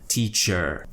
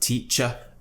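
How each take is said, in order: First: The word ends in an er sound. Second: The word ends in a plain uh sound. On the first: "In North American English, you would hear er" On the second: "there's always an uh at the end"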